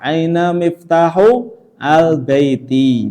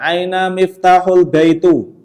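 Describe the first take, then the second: First: The last word ends in an i vowel. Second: The last word ends in an u vowel. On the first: The speaker calls it right. "Yang kedua harus di kasroh" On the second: The speaker calls it wrong. "Tidak boleh kita baca ... Salah ya"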